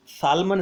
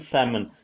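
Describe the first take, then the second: First: Salmon said as SAL-mon, with the L sounded; wrong pronunciation. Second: Salmon said as SAM-un, with a silent L; correct pronunciation. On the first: Teacher showing students the wrong Salmon, L sounded. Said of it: "इसका pronunciation नहीं है". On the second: Teacher giving students the correct salmon, silent L. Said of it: "इसका pronunciation salmon". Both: Shown as a demonstration.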